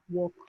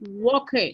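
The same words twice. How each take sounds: First: The -ed ending is barely heard. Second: The -ed ending is sounded out clearly. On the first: The speaker calls it right. "esa terminación se pierde... no es muy sonora" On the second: The speaker calls it wrong. "No vamos a decir walk"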